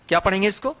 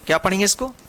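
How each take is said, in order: Both takes have the same delivery.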